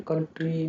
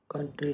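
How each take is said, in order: First: "कंट्री" misread as "kawn-tree"; rejected O vowel. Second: "कंट्री" with a short uh; correct short vowel. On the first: Teacher questioning the ou spelling, "कंट्री" as kawn-tree. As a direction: say "कंट्री" with a rounded first vowel, like "कॉन्ट्री". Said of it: "कंट्री में कंट्री क्यों नहीं बोलते". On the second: Teacher giving students the right form, "कंट्री" with short uh. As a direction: say "कंट्री" as kun-tree. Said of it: "कंट्री बोलते हैं". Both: Shown as a demonstration.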